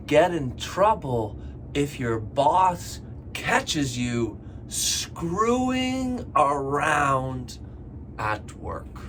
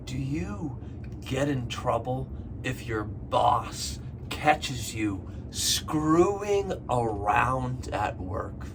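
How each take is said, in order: First: "screwing around" drawn out very slowly; teacher drawing out "screwing around" for learners; slowed on screwing around. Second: Slow question. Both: Shown as a demonstration. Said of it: "One more time".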